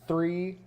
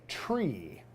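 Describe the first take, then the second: First: The word begins with a th sound. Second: The word begins with a t sound.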